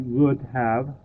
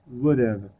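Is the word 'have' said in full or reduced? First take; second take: full; reduced. First: Both words are said in full, 'would have'. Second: 'Have' is reduced, sounding like 'would-uv'. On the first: The speaker calls it wrong. "we don't say would have" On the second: The speaker calls it right. "we say would've"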